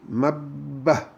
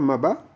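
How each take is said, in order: First: The b sound is held long and doubled. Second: The b sound is short and single. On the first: The speaker calls it right. "c'est comme si on entend deux fois le be" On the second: The speaker calls it wrong. "on ne dirait pas ma ba, parce que ma ba, c'est sans le trois renversé"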